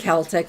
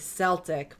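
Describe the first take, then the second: First: The word begins with a hard K sound. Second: The word begins with a soft S sound. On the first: It refers to the culture and people. "It's a hard C" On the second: It refers to the sports team. "I say Celtic when I'm talking about the team"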